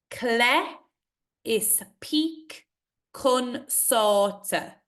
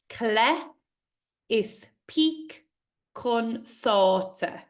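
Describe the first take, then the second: First: Is peak lifted high, slow line; slow recitation. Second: Slow recitation again. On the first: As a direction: recite slowly, peak rising. Poem recitation. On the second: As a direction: recite it once more, slowly. Repeats the line. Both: Acted.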